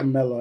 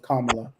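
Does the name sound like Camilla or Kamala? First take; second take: Camilla; Kamala. First: The name is said like Camilla. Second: The name is said like Kamala. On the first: The speaker calls it wrong. "I always call it" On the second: The speaker calls it right. "no, it's Kamala"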